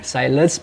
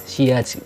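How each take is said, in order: First: It is read like the English word silence. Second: It is said the French way, see-yazh. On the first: The speaker calls it wrong. "dulu tuh saya nyebut shades ini adalah silence" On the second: The speaker calls it right. "sebenarnya silence ini dibacanya shades"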